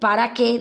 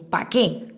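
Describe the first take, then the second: First: The word para is said in full. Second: Para is cut to pa and joined on. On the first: Formal, proper usage. The speaker calls it right. "en vez de decir" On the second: Informal, careless usage. The speaker calls it wrong. "cuando unimos las palabras"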